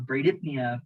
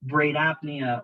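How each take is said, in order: First: "bradypnea" said bray-DIP-nee-uh; alternative pronunciation. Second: "Bradypnea" said bray-DAP-nee-uh; first pronunciation. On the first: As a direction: give "bradypnea" an IP in the middle. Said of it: "it'll sound different". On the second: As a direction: give "Bradypnea" an AP in the middle. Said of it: "where you emphasize the different syllables". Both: Shown as a demonstration.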